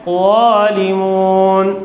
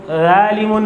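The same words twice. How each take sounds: First: ज़ालिमून slow with a full heavy zo. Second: ज़ालिमून with a light, thin z. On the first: Teacher shows correct heavy zo, slow. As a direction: round the zo of ज़ालिमून fully. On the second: Teacher demonstrates the mistake, thin z. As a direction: read ज़ालिमून thin, the wrong way. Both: Shown as a demonstration. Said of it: "ज़ालिमून नहीं है".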